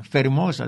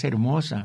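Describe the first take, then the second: First: Fermosa with a clear f where hermosa is now silent h; old Spanish fermosa. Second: Said in the usual way. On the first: Retold or imitated. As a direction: say fermosa like Don Quijote, f sounded. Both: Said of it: "diría Don Quijote".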